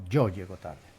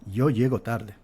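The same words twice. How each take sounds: First: The 'y' of 'yo' is a stronger consonant. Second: The 'y' of 'yo' is a soft glide. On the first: "a principio de enunciado, se pronuncia de manera diferente" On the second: "El sonido es el sonido de una especie de I, el de la Y, más o menos una especie de semiconsonante"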